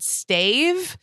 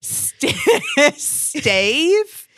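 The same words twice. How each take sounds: First: Puzzled rising Stave?; high questioning "Stave?"; confused Stave. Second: Much higher, louder "Stave?" with a laugh; laughing "Stave?" rising high; baffled Stave. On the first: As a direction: ask "Stave?" back, lost. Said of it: "And I said". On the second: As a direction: squeak "Stave?" in disbelief. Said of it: "no joke". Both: Retold or imitated.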